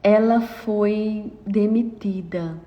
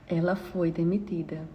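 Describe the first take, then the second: First: Slow, deliberate statement; weighing the words slowly; slow emphasis. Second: Much softer, falling close; soft repeat. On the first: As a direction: let each word land slowly. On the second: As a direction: drop to a soft, heavy repeat. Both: Shown as a demonstration.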